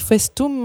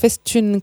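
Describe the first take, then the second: First: The word ends with an 'um' sound. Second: The word ends with an 'une' sound. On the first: The speaker calls it wrong. "j'ai dit Festum" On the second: The speaker calls it right. "en fait, c'est Festune"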